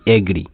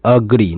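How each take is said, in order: First: एग्री with "ay" as first vowel; mispronunciation demo. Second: अग्री with a short schwa first; correct pronunciation. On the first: Teacher contrasts the wrong reading, एग्री as "ay-gree". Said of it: "ना कि एग्री". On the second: Teacher shows how to say agree, अग्री as "uh-gree". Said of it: "तो यहाँ बोलेंगे अग्री". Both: Shown as a demonstration.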